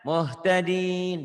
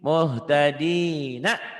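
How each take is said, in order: First: The word ends on n with longer vowel. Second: The word ends on a short vowel after n. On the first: The reading stops at this word. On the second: The word is read in flowing speech. "Saya bacanya kalau apa adanya kan gini"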